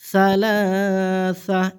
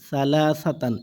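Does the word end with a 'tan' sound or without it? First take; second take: without tan; with tan. First: The word ends without any 'tan' sound. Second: The word ends with a 'tan' sound. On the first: The reader stops at the end of the verse. "এখানে সালাসা এরকম উচ্চারণ হবে" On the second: The reading continues without stopping here. "সালাসা তা দুই জবর তান"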